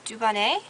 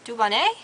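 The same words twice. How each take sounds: First: The name is said with a French accent. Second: The same.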